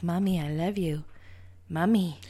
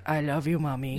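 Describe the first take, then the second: First: Put-on creepy little girl. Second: Lightly voiced creepy little kid; creepy child voice. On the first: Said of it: "creepy little girl being like".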